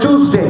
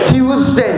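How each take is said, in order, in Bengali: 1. এটি 'ch' ধ্বনি দিয়ে শুরু হয়। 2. এটি 'ty' ধ্বনি দিয়ে শুরু হয়।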